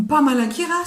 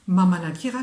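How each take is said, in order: First: Pamalakira higher and louder; a bright Pamalakira, pitched up; Malagasy word. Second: Mamalakira starting on an m, louder; Malagasy word. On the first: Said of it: "je chante". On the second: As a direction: Mamalakira said at a level pitch. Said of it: "je suis en train de chanter". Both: Shown as a demonstration.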